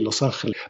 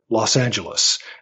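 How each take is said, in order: First: It is pronounced with Spanish sounds. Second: It is pronounced with English sounds. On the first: This follows the name's original language. "It's the Angels and it's Spanish. So it should be" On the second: This is the form English speakers have adopted. "now we have settled on"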